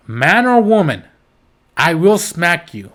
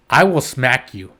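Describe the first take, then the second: First: Loud emphatic threat. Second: Said in the usual way. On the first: Real, not acted. Heated threat to child hitters.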